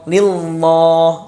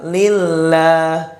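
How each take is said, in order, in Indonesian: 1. Bunyi L-nya tebal dan berat. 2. Bunyi L-nya tipis dan ringan. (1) "Jangan dibaca lillah, lillah, lillah ya, jangan seperti itu" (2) "bacanya lillah, lillah, tidak boleh ditebalkan huruf lamnya"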